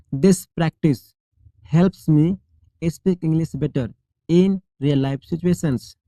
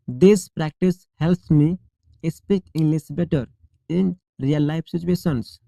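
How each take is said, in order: Both takes have the same delivery.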